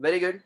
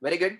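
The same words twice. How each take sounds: The two takes are said the same way.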